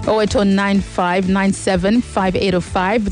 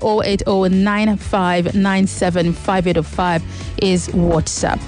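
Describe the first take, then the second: First: The number is read at a quicker pace. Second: The number is read at a slower pace.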